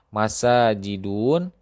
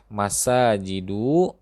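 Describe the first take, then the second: First: The word ends with the sound 'un'. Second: The word ends with the sound 'u'. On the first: The speaker calls it wrong. "lafaz yang keliru" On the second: The speaker calls it right. "yang benar adalah"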